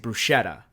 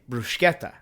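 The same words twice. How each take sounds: First: It is said the everyday anglicized way. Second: It is said the native Italian way. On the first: "you say bruschetta" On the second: "you're supposed to say bruschetta. That's that's the actual pronunciation"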